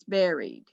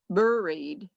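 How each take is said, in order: First: The first vowel sounds like the E in 'bed'. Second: The first vowel sounds like the U in 'fur'. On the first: The speaker calls it right. "We pronounce it as though it's an A" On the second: The speaker calls it wrong. "Instead of buried"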